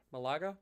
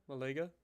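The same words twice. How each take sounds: First: Malaga as "muh-LAH-kuh" with a k; pronunciation try. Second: Malaga as "muh-LAY-guh"; pronunciation try. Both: Shown as a demonstration. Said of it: "Not sure how that's pronounced".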